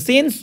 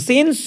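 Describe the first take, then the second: Both takes have the same delivery.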